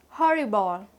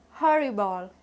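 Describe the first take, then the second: No difference in how they are said.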